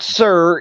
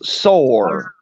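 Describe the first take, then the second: First: The vowel sounds like the vowel in 'her'. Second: The vowel sounds like the vowel in 'door'. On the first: The speaker calls it wrong. "it's not sir" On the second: The speaker calls it right. "it's sore"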